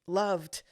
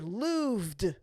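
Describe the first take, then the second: First: The vowel sounds like the one in love. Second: The vowel sounds like the one in proved. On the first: The speaker calls it wrong. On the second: The speaker calls it right. "I think looved sounds better after proved"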